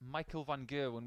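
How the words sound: The name is said with an English pronunciation. "which is the English pronunciation of his name"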